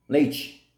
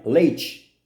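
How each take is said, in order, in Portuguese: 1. É falado com sotaque carioca litorâneo. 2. É falado com sotaque carioca litorâneo.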